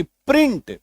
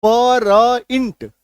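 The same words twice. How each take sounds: First: प्रिंट said as one blended "pr" onset; blended PR sound. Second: परइंट dragged out in separate pieces, pa-ra-int; very slow letter-by-letter परइंट; wrong split reading. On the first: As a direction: model प्रिंट clearly, no vowel between p and r. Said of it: "उसका उच्चारण कैसे होगा". (प्र को मिलाकर साफ़ उच्चारण) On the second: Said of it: "अगर हम लोग इसको परिंट पढ़ेंगे". (प और र अलग-अलग, धीमा गलत उच्चारण) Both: Shown as a demonstration.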